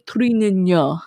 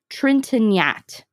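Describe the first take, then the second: First: The name is said with French sounds. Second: The name is said with American English sounds.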